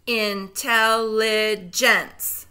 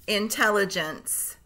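First: Slow, split into syllables; segmented syllables. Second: Said in the usual way. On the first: Shown as a demonstration. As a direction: break Intelligence into slow pieces. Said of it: "say the syllables in segments". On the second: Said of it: "blend them all back together".

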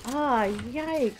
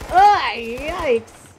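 First: Said in the usual way. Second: Loud startled wince; real startled cry; loud yikes. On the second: Real, not acted. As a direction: blurt it out in alarm. Gamer reacts to danger.

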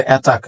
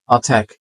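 First: অ্যাটাক said "AE-tak"; mistaken pronunciation. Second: অ্যাটাক said "uh-TAEK"; light first vowel, wide ae in second syllable of অ্যাটাক; correct pronunciation. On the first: Teacher quoting what we say, অ্যাটাক as ae-tak. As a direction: open অ্যাটাক with the vowel of cat. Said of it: "আমরা বলি". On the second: Teacher correcting learners, অ্যাটাক as uh-taek. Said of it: "আ, এরপরে ট্যাক". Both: Shown as a demonstration.

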